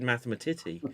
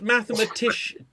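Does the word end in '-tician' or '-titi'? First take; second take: -titi; -tician. First: The word ends with a '-titi' sound. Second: The word ends with a '-shun' sound. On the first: The speaker calls it wrong. "I just said mathematiti" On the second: The speaker calls it right. "it's because it's mathematician"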